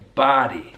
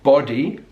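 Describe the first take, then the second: First: The vowel is an open American 'ah' sound. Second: The vowel is a rounded British 'oh' sound. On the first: "So that's his American English" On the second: "not body"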